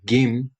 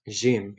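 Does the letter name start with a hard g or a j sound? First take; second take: hard g; j. First: The word begins with a hard g sound. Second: The word begins with a soft j sound. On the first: This is the Egyptian pronunciation. "In Egyptian Arabic, this is pronounced Gim" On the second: This is the Levantine pronunciation. "today I'm doing Levantine"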